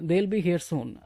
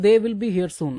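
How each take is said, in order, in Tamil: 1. 'They will' ஒரே அசையாக இணைந்து சொல்லப்படுகிறது. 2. 'They will' இரண்டு முழு சொற்களாகச் சொல்லப்படுகிறது. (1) "தேல் பி ஹியர் சூன் அப்படின்னு உங்களுக்கு பிடிச்சா பேசுங்க" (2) "தே வில் பி ஹியர் சூன் அப்படின்னு கூட பேசிக்கோங்க"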